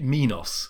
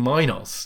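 First: The first syllable differs from the start of Minotaur. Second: The first syllable matches the start of Minotaur. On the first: The speaker calls it wrong. "I would not have pronounced it Minos, which people often do" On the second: The speaker calls it right. "Surely it was the Minotaur, King Minos"

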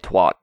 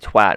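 First: The word is said with an American English vowel. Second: The word is said with a British English vowel. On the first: This is how the speaker's own group says it. "we say twat" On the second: This is how the English say it. "you guys say twat"

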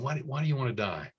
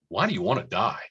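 First: It sounds gentle and caring. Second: It sounds condescending and judgmental.

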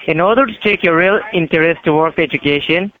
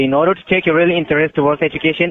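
First: It is said slowly. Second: It is said fast.

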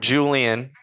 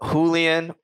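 First: The name is pronounced the English way. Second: The name is pronounced the Spanish way. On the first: "or English" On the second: "if you're Spanish"

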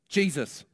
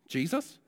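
First: It sounds confident, like a firm statement. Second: It sounds unsure, like a hesitant guess.

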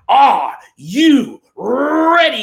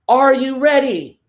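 First: It is said loudly with high energy. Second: It is said flatly with low energy.

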